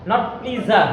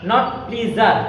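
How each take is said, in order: Both takes have the same delivery.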